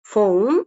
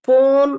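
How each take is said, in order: First: The word begins with an F sound. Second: The word begins with a P sound. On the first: The speaker calls it right. "பிஹெச் அப்படின்னு வந்துருச்சுனாலே அது ஃபா sound தான்" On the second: The speaker calls it wrong. "அப்ப பி வருதே அப்படின்னு சொல்லி போன், பிசிக்ஸ் அதெல்லாம் வரக்கூடாது"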